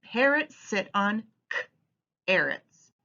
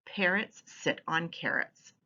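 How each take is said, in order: First: "k-arrots" said slowly as "k" then "arrots"; onset split. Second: Said in the usual way. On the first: Shown as a demonstration. Teacher modelling "k-arrots" slowly for children. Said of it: "read it like this". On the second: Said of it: "Yes, parrots".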